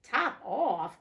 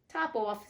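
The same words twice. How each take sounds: First: "Top off?" cried louder and higher with a questioning rise; the mouse can't believe the name, cry "Top off?" out; surprised cry. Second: "Top off" said evenly, offhand and unbothered; cool reply. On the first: The mouse crying out in disbelief at the cat's answer, loud surprised question. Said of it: "cried the mouse". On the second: The cat coolly naming the godchild to the mouse, offhand. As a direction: toss off "Top off" as if it were nothing. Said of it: "said the cat quite coolly". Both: Acted.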